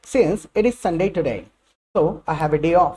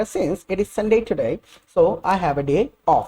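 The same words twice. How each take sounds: First: Slow model sentence. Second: Very slow, careful English for repeating; slow, deliberate classroom reading; slow teacher model. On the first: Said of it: "देखिए कितने तरीके से कहा जा सकता है". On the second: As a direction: spell it out slowly for learners to copy. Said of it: "देखते हैं क्या क्या यूज़ करा जाएगा". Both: Shown as a demonstration.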